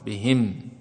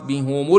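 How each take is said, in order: First: The h is followed by an i vowel. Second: The h is followed by a u vowel. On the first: The reciter stops on this word. "إذا وقفوا يقفون بالكسر" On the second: The word runs on into the next word. "يقرؤون في حال الوصل"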